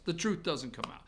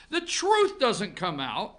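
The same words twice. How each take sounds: First: Said in the usual way. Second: "The truth doesn't come out" slowed, each word weighted; slow emphatic repeat. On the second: Shown as a demonstration. Host repeats it to listeners slowly with weight. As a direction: lean on "truth" and drag it out. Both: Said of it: "repeated for emphasis".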